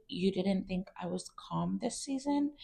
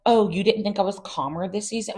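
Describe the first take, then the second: First: Much softer, put-on calm; mock her forced serenity, hushed; fake calm voice. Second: Higher, pointed and snippy; snippy retort. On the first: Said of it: "in her, like, calm voice". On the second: Retold or imitated. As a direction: throw the question back with bite. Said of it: "she didn't say it like that".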